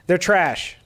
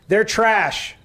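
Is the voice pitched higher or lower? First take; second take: lower; higher. First: The voice is pitched lower. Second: The voice is pitched high. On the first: "Let's take it down" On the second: "That that was too high"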